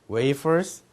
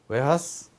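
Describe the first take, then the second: First: It is said as wei-peo-seu, English-like. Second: It is said as we-ha-seu, Japanese-like.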